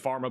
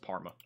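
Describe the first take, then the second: First: The name begins with an F sound. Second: The name begins with a plain P sound. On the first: The speaker calls it wrong. "I keep saying Pharma" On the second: The speaker calls it right. "but it's Parma"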